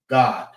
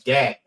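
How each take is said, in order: First: The name is pronounced the Hebrew way. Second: The name is pronounced the English way. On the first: "If you say it in Hebrew, it's God" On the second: "That's how you say it in English"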